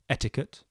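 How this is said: It is said with an English pronunciation. "English etiquette"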